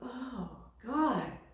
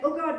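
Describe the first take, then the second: First: It is said in a calm, awed way. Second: It is said in a panicked, frightened way. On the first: Something wonderful is happening. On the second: Something scary is happening.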